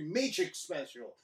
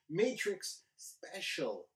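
First: The words sound slurred and lisped. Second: The words sound crisp without a lisp. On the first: The speaker calls it wrong. "I said that weird" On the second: The speaker calls it right. "without a lisp and drool that time. Much better"

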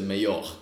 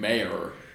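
First: The word has an unusual, foreign-sounding pronunciation. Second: The word has its common, familiar pronunciation. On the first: "he was foreign, so he said mayor" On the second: "the really well-known pronunciation"

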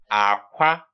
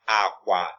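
First: The first syllable is low, the second high. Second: Both syllables are said on a low tone. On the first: It means egg. "the next one is actually low tone, high tone" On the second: It means bed. "Low tone"

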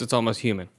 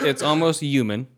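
First: The h at the start of human is pronounced. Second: The h at the start of human is dropped. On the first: This is how the West Coast says it. "And in the West Coast" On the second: This is how the East Coast says it. "So in the East Coast, ... in East Coast, they don't say a lot of H's"

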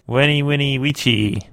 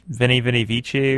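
First: The words begin with a W sound. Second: The words begin with a V sound.

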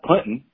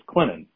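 First: The middle T is clearly pronounced. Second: The middle T is silent. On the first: The speaker calls it wrong. "it's not Clinton" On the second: The speaker calls it right. "the T is silent"

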